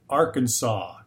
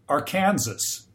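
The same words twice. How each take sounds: First: The word ends with a 'saw' sound. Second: The word ends like 'Kansas', with a final s. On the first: "why do they pronounce it Arkansas?" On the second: "the rest of the name is spelled exactly like the state of Kansas. So he said, I think it should be pronounced Arkansas"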